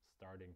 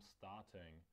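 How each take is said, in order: First: The r is pronounced and the t is softened. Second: The r is silent and the t is clear. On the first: "Američani ... ho tam vysloví, ale místo T vysloví" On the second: "v Británii ... to R ... nevysloví"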